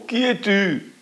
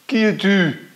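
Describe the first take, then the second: First: High, far-off echoed question. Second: High, louder call into the valley; girl's call. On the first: The echo repeating the girl's question from afar. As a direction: throw it back like a distant echo. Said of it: "l'écho, évidemment, répond". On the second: Little girl calling into the empty valley. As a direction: call out to the unseen voice. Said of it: "La petite fille dit". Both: A narrator's reading.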